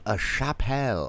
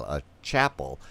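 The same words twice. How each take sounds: First: "chapelle" said sha-PELL, stress on the end; mock-fancy pronunciation. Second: Said in the usual way. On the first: Fancy mispronunciation, then corrected.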